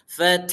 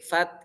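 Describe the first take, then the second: First: The final h sound is clearly voiced out. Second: The final h sound is barely audible. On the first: The speaker calls it wrong. "kalau suaranya disampaikan kayak fath, salah" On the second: The speaker calls it right. "kayak fat gitu, kayak enggak ada haknya"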